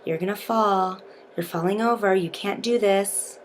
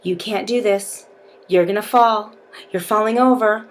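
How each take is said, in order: First: Soft, hushed taunts; whispering. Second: Mock taunts, lightly voiced; taunting beast. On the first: Shown as a demonstration. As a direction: whisper the taunts into their ear. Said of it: "whispering in their ear". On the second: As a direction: tease them to make them lose focus. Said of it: "your partner is gonna be saying things to you like".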